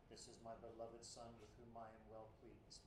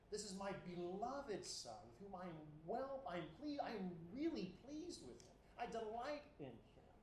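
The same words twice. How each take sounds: First: Put-on quiet, detached monotone as heard in childhood; flat, distant reading. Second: Higher, beaming with fatherly pride; delighted voice. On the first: Preacher recalls childhood reading of God's words, quiet and flat. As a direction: read it cold and far away, no joy. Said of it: "in the voice of my childhood again". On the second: Acted. God speaking over Jesus, full of pleased delight. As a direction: say it like a proud father glowing over his son. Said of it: "God is expressing pleasure".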